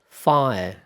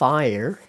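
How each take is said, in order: First: It is said with a British accent. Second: It is said with an American accent.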